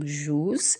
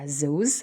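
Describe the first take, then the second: First: The word begins with a j sound. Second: The word begins with a z sound. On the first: This is how people from other regions say it. "تقولوا له أنتم الجوز" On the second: This is the local Annaba way of saying it. "البقلاوة تاع الزوز"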